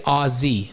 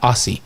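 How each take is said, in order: First: The middle consonant is a Z sound. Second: The middle consonant is an S sound. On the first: The speaker calls it right. "Aussie wants it to be with a Z" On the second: The speaker calls it wrong. "not Aussie"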